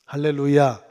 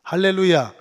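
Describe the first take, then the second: First: Loud preacher's call, falling at the end; called out hallelujah. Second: Louder hallelujah. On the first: Pastor calling the church to answer, loud hallelujah. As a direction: cry out to the congregation. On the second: Pastor demanding a bigger amen, shouted hallelujah. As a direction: shout it so they answer. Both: Real, not acted. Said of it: "아멘 크게 하세요".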